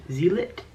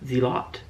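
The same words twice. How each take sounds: First: "Zealot" as ZEE-lit, higher and rising; "Zealot" said ZEE-lit, unsure; trying a pronunciation. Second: "Zealot" as ZEE-lot, rising; "Zealot" said ZEE-lot, unsure; trying a pronunciation. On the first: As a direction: question "Zealot" with a short LIT ending. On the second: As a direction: question "Zealot" with a full LOT ending. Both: Shown as a demonstration. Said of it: "I can't say that word right".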